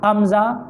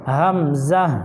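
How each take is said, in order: First: امزہ quick, without the opening h; wrong amza. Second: ہمزہ slow, breathed h and held m; correct hamza. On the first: Teacher shows the mistake, amza. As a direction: drop the h of امزہ. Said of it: "امزہ نہیں". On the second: Teacher corrects to hamza, slow and clear. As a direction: draw out ہمزہ in two beats. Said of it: "بلکہ". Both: Shown as a demonstration.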